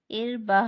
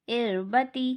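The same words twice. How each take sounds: First: इर बा with the ta dropped to "bah"; stop form with ha. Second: इर बती with the final ता sounded as "ti"; continuing form with ta. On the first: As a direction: end इर बा on a breathed h. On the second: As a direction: end इर बती on a voiced "tee". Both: Shown as a demonstration. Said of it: "आयत करने की सूरत में इसे ता नहीं पढ़ेंगे".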